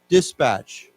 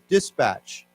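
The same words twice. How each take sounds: No difference in how they are said.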